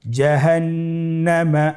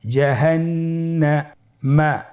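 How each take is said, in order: First: জাহান্নামা as one connected word, long held nn; syllables joined. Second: জাহান্নামা slowly, with a gap before মা; syllables separated. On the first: Teacher rejoins the word for learners, connected recitation. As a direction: blend জাহান্নামা without gaps. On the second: Teacher builds the word for learners, slow separated syllables. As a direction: hold the last part of জাহান্নামা apart. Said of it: "পৃথক করে আমরা উচ্চারণ করব". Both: Shown as a demonstration.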